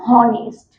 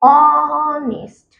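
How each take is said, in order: First: The word begins with an h sound. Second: The word begins directly with a vowel. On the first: The speaker calls it wrong. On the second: The speaker calls it right.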